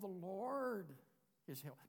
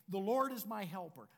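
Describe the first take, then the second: First: It is said hesitantly, without conviction. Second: It is said firmly, with full conviction. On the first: The speaker calls it wrong. "not, oh" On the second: The speaker calls it right. "So you say it with confidence"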